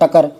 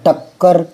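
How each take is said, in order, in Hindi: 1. बीच की k ध्वनि एकल है। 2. बीच की k ध्वनि दोहरी है। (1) "अगर आधा कहने लगाएंगे तो ये हो जाएगा टकर" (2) "जैसे शक्कर वैसे ही टक्कर"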